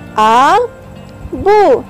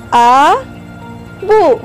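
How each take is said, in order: Both takes have the same delivery.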